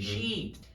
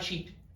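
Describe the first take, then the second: First: The vowel is drawn out long. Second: The vowel is said short and clipped. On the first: The speaker calls it right. "Tem que prolongar" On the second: The speaker calls it wrong. "a tendência é falar sheet"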